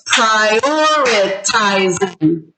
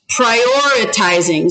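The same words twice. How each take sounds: First: "prioritizing" very slowly, split into pri-or-i-ti-zing; syllable by syllable. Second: Said in the usual way. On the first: Shown as a demonstration. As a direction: separate every syllable of "prioritizing". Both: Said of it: "how many syllables was that".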